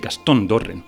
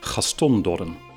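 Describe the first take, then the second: First: The name is said with a Spanish pronunciation. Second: The name is said with a Dutch pronunciation. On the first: "And in Spanish, they would say" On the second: "Many Dutch speakers would say"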